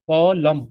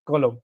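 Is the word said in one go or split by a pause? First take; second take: split; one go. First: A pause splits the word after the first syllable. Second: The word is said smoothly without a break.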